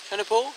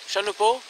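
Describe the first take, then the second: No difference in how they are said.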